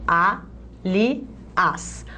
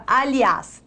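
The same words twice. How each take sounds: First: Slow Aliás in three separate beats, a, li, ás; syllable by syllable. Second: Said in the usual way. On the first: Shown as a demonstration. Teacher splitting the word to explain its accent, syllable by syllable. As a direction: break Aliás apart with pauses between syllables. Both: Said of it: "Vou separar as sílabas".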